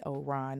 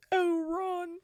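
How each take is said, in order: First: Mild annoyed sigh of a name; a touch of irritation on "Oh, Ron". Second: Much higher and louder, breaking into tears on "Oh, Ron"; tearful. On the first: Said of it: "it wasn't like the annoyed". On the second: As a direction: cry out "Oh, Ron" as she breaks down. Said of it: "It was one of them". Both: Shown as a demonstration.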